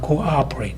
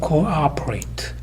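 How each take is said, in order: First: The second vowel starts with a glottal catch. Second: The second vowel flows in smoothly, without a catch. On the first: The speaker calls it right. "cooperate 이렇게 하죠" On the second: The speaker calls it wrong. "그냥 cooperate이 아니라"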